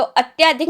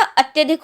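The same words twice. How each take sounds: First: अत्याधिक said with a long aa, atyaa-dhik; wrong form. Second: अत्यधिक said with a short a, atya-dhik; correct form. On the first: Teacher showing students the wrong word, long aa in अत्याधिक. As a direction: stretch the aa in अत्याधिक. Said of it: "अत्याधिक नहीं होता". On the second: Teacher giving students the right word, short a in अत्यधिक. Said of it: "अत्यधिक होता है". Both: Shown as a demonstration.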